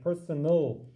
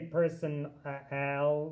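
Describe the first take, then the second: First: The last syllable has a reduced schwa vowel. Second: The last syllable has a full short A vowel. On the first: The speaker calls it right. "it makes a kind of in between sound like personal. That's the schwa sound" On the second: The speaker calls it wrong. "we don't say person al"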